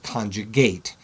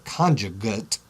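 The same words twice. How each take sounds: First: It is pronounced the way the verb is. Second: It is pronounced the way the noun is. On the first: It names the act of making it. "If I want to talk about the act of making the conjugate, I call it conjugate" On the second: It names the thing that results. "If I'm talking about it as a noun, this is the conjugate. I say it that way"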